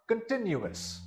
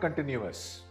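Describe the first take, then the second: First: The stress is on the second syllable. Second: The stress is not on the second syllable. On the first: The speaker calls it right. "The stress is upon the second syllable" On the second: The speaker calls it wrong. "This word is not continuous"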